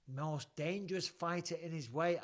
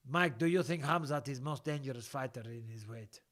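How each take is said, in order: First: Said in the usual way. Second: Put-on Russian accent. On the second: Host reading viewer's question about Khamzat, Russian accent. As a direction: read it out as a mock Russian. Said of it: "I can do a Russian accent".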